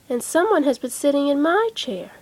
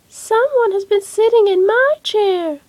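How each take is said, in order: First: It is said in a middle-sized voice. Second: It is said in a little baby voice.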